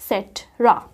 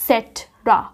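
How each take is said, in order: Both takes have the same delivery.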